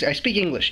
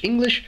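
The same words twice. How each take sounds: First: Said in the usual way. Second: "English." said on its own, pitched up with a rising end; "English." with a high, incredulous rise; stressed repeat. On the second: Real, not acted. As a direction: hammer home "English." as if it's obvious. Repeating the word, exasperated.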